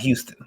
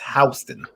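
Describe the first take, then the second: First: It is said the other, non-New York way. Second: It is said the New York street way. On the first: The speaker calls it wrong. "not Houston" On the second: The speaker calls it right. "in New York ... they keep saying that it's Houston"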